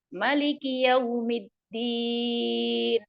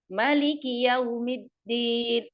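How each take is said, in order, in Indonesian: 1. Vokal pertama 'ma' dibaca pendek. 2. Vokal pertama 'ma' dibaca pendek.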